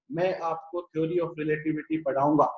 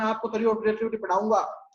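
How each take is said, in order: First: Lower-pitched take. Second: Said in the usual way. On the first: Shown as a demonstration. Teacher showing students a second pitch, lower. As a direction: say "मैं आपको theory of relativity पढ़ाऊंगा" in a lower voice. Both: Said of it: "तो दोनों की frequency क्या होगी बेटा".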